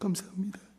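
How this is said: It sounds tearful and deeply moved.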